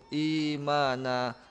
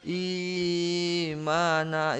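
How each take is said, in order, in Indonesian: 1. Vokal panjangnya tetap pendek. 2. Vokal panjangnya terlalu panjang. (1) "Yang penting dia satu harakat cukup" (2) "itu terlalu lama"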